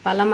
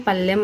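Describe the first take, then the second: First: Said in the usual way. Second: పల్లెం as "pallem"; doubled l, e vowel. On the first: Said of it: "తారుమారు చేసి పలుకుతారు". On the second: Shown as a demonstration. Teacher showing an error, పల్లెం with double l. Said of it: "అని పలుకుతారు".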